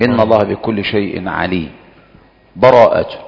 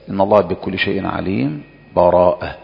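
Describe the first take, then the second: First: A full stop with a breath before the last word. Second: A brief silent break without breath before the last word. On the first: The recitation fully stops between the two passages. "هذا الوقف" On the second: The recitation briefly halts without ending. "الوجه الثاني السكت"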